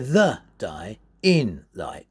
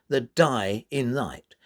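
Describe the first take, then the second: First: The stresses do not alternate weak then strong. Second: Syllables alternate weak then strong, iambically. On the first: The speaker calls it wrong. "you wouldn't say the die in light. You wouldn't say it like that" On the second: The speaker calls it right. "You'd say"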